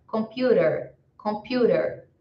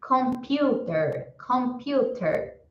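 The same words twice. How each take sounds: First: Computer with a flapped t, kom-PYOO-rer; his own computer. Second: Computer with a clear t, kom-PYOO-ter; standard computer. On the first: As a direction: computer the way he says it. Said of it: "Eu pronuncio dessa outra forma". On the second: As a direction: say computer with a crisp t. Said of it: "Ou você pode pronunciar de outra forma". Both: Shown as a demonstration.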